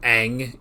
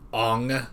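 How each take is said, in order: First: The name is said the speaker's preferred way. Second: The name is said the way the movie says it. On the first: The speaker calls it right. "instead of Aang" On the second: The speaker calls it wrong. "war flashbacks to Ong"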